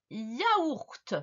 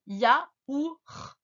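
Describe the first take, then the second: First: Said in the usual way. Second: YAOURT split ya - ouur - te; syllable breakdown. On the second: Shown as a demonstration. Teacher corrects the dictation, YAOURT syllable by syllable. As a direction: separate the sounds of YAOURT. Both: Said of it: "on corrige d'abord".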